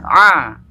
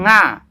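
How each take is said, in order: First: It starts with a throaty ain sound. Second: It starts with a nasal ng sound. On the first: The speaker calls it right. "Ini huruf ain ya" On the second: The speaker calls it wrong. "bukan nga"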